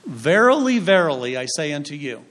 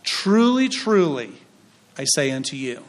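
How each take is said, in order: First: A touch of King James solemnity; archaic biblical intoning. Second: Modern translation reading. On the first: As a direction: intone it like old scripture. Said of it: "We don't speak like that". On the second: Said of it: "it says it this way". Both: Shown as a demonstration.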